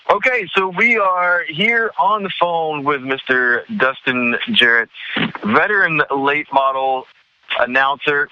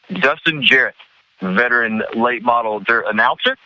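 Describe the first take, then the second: First: Hyped announcer intro, higher and slower; big build-up. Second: Said in the usual way. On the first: Acted. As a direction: build him up like a star guest. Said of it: "that nice big build-up that you gave me".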